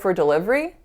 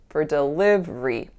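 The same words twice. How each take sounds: First: The pitch rises at the end. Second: The pitch falls at the end. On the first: The speaker is asking a question. The speaker calls it wrong. "it would sound like a question because I raised my pitch" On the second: The speaker is confidently making a statement. The speaker calls it right. "You can hear that pitch drop, especially at the very end"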